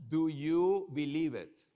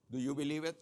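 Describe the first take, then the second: First: Rally the audience loudly; loud question. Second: Said in the usual way. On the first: Real, not acted. Speaker to conference crowd, loud slow question. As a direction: call it out loud and slow to the room.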